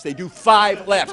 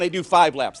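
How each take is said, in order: First: Slow, with "five" drawn out and punched; stress on five. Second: Said in the usual way. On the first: Real, not acted. Telling the crowd again in disbelief, stress on "five". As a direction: lean hard and long on "five".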